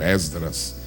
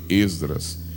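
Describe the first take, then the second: First: The first vowel is pronounced open. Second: The first vowel is pronounced closed. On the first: "em um lugar bem aberto" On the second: "eles fecham bem"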